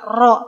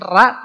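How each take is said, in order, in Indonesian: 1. Vokalnya 'o' murni, bulat. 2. Vokalnya 'a' tipis, ringan. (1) "bukan juga ro" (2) "Bukan ra"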